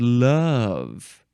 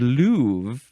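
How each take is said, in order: First: Love has its usual short vowel. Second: Love has a long vowel, like move. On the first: "the way I say these words are move and love" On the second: "If they rhymed, they would have to be pronounced move and louvre"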